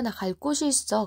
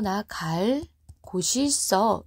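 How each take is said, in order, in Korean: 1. 두 단어를 끊지 않고 붙여서 발음해요. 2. 두 단어 사이를 일부러 끊어서 발음해요. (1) "그냥 붙여서 발음할 수도 있다면 갈 곳이라고 발음하면 돼요" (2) "의도적으로 이것을 어, ... 요렇게 발음할 수도 있다"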